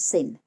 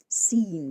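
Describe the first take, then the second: First: The vowel is short. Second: The vowel is long. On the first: "make long vowels into short ones" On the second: "make long vowels into short ones"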